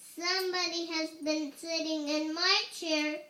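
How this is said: It is said in a teeny tiny voice.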